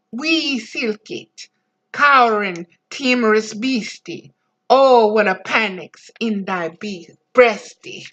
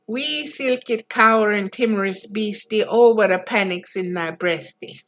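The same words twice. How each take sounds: First: Reciting Burns in broad Scots; Burns' mouse poem in a broad Scots accent. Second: Second, gentler read in broad Scots; a tender second read in broad Scots; broad Scots recited again. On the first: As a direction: roll it out in broad Scots dialect. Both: Retold or imitated. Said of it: "painted forever in broad Scotch dialect".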